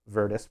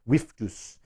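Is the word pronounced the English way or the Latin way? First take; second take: English; Latin. First: It is said with an English pronunciation. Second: It is said with a Latin pronunciation. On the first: "We can call it that in English language" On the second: "but in Latin it was Viftus, um, with that pronunciation"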